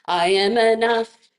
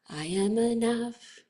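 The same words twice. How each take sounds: First: It is said loudly. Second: It is said softly.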